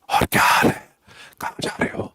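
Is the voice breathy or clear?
breathy. The voice is breathy with air leaking. The voice is lost because air leaks. "voice will be like this"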